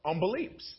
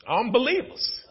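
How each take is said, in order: First: Said in the usual way. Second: "Unbelievers" said higher with a rising tune; raised repeat; emphatic repeat. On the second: Shown as a demonstration. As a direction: throw "Unbelievers" back at the crowd.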